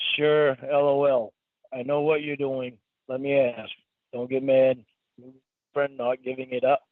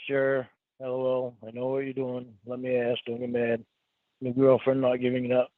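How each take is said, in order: First: It is read more slowly and clearly. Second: It is read fast and rushed.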